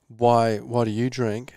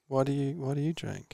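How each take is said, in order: First: The question sounds confrontational and challenging. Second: The question sounds gentle, soft and curious. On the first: The speaker is confronting the person about drinking. The speaker calls it wrong. "Instead of saying" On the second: The speaker is curious and wants a conversation. The speaker calls it right. "a more soft way to approach this conversation"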